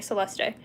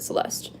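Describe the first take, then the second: First: An extra E vowel is sounded. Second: No extra E vowel is sounded. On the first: This is how people in some cultures say it. "they pronounce the E" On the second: This is the speaker's own usual way. "But I pronounce it Celeste"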